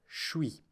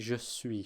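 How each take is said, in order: First: The two words are smushed into one syllable. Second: Both words are fully articulated as separate syllables. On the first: "It's more like suis" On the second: "doesn't really say je suis. She certainly doesn't articulate it"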